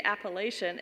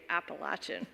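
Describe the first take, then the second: First: First Appalachian said "app-uh-LAY-shun"; long A. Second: Second Appalachian said "app-uh-LATCH-un"; Appalachian with LATCH, short A and "ch". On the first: Contrasting outsiders' way of saying it, long A. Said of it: "you say Appalachian". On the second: Giving her own way of saying it, short A. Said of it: "I say Appalachian". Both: Shown as a demonstration.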